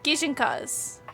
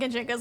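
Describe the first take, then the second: First: The word begins with the syllable 'gi'. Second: The word begins with the syllable 'gen'. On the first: The speaker calls it right. "I'm gonna go with that" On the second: The speaker calls it wrong. "I'm also saying it wrong"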